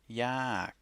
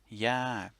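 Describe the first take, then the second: First: The word is said on a falling tone. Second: The same.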